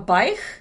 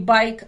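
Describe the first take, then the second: First: The word ends in a raspy kh fricative. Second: The word ends in a crisp k stop. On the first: "а байх" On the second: "там говорят не байк"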